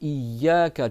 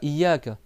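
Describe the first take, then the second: First: The y sound is held and doubled. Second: The y sound is short and single. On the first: It means it is You alone who is worshipped. The speaker calls it right. "tu doubles le Ya" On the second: It refers to the rays of the sun. The speaker calls it wrong. "c'est pas Iyaka"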